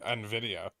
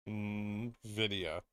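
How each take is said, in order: First: The N is said as the letter 'en'. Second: The N is blended straight into the word. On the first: "Then I'd say NVIDIA" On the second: "I pronounce it the way it's spelled"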